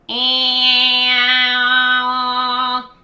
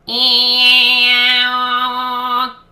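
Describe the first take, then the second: The two takes are said the same way.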